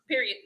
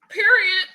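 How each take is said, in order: First: It is said plainly, as a normal word. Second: It is said with emphatic youthful slang flair.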